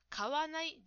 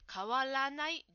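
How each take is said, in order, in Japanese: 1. 真ん中の'ra'を入れずに言う。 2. 真ん中の'ra'を入れて言う。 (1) "買わないではなくて、" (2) "らが抜けていました。"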